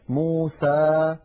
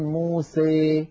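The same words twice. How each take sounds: First: The final vowel is a plain, open a sound. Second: The final vowel leans strongly toward an ee sound. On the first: "فتحا وسطا" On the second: "فيخلط صوت الألف بصوت الياء أكثر من هذا"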